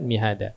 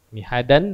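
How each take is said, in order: First: The word ends on a vowel. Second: The word ends with an n sound. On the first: This is the form used when stopping. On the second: This is the full form before a stop.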